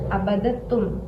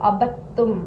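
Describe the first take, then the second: First: A d sound is heard before the t. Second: The d merges into a long double t. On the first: This is the underlying form of the word. The speaker calls it wrong. "यहाँ पर ये था असल में अबदतुम" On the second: This is how the word is actually read. The speaker calls it right. "हम यहाँ पर ता को पढ़ेंगे, दाल नहीं पढ़ा जाएगा"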